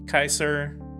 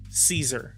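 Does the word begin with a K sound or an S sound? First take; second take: K sound; S sound. First: It starts with a hard K sound. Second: It starts with a soft S sound. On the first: This is the original Latin pronunciation. "The letter C is always hard in Latin, so like a K. The A E diphthong said I" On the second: This is the English pronunciation. "in English, Caesar is pronounced Caesar"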